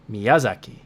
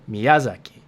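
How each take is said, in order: First: The second syllable carries strong, loud stress. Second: The same.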